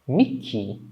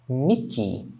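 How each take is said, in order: No difference in how they are said.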